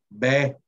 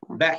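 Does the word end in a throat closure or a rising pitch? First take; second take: rising pitch; throat closure. First: The word ends with a pitch that rises smoothly. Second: The word ends with a sharp closure in the throat. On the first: "en realidad lo que escuchamos es un tono ascendente" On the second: "Un poco afectada la pronunciación para que pueda entender. Ve, cerrando aquí"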